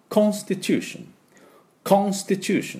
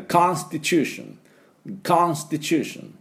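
First: British English, rounded "KON" in Constitution; high British model pronunciation; British accent. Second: American English, wide open "KAHN" in Constitution; slow American model pronunciation; American accent. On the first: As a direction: say Constitution as a Briton, high-pitched. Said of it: "イギリス人が発音すると". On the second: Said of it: "アメリカ人がこれ発音すると". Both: Shown as a demonstration.

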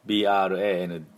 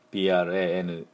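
No difference in how they are said.

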